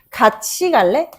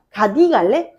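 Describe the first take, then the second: First: The first word is said with a ch sound. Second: The first word is said with a plain t sound. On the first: The speaker calls it right. "이렇게 된단 말이야" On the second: The speaker calls it wrong. "라고 하지 않죠"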